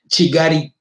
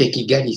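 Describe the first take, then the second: First: The name is said with a Kinyarwanda pronunciation. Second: The name is said with a Swahili pronunciation. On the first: "Ils appellent ça en Kinyarwanda" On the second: "c'est en Swahili"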